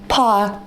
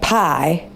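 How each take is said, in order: First: British accent, the vowel with no glide. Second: Ohio accent, the vowel ending in a slight glide. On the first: "if you're British, there's no Y in pie, because it's pa" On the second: "where we grew up in Ohio, like pie, pie, yeah, so it's not quite a southern accent, so just like a little Y"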